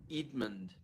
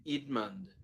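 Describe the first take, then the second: First: The name is said in a New Zealand accent. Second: The name is said in a New Zealand accent.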